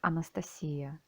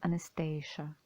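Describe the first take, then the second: First: The name is pronounced the Russian way. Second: The name is pronounced the English way.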